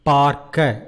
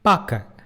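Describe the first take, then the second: First: Every consonant and vowel is clearly pronounced. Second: Some sounds are muted and slurred together. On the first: It is formal speech. "in formal Tamil" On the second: It is casual everyday speech. "in spoken Tamil it becomes"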